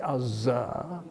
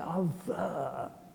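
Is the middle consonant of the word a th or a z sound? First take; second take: z; th. First: The middle consonant is a z sound. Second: The middle consonant is a th sound. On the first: The speaker calls it wrong. "We do not say other" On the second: The speaker calls it right. "The letters are T and H. The sound is th"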